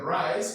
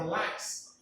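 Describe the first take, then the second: First: The word begins with an R sound. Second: The word begins with an L sound.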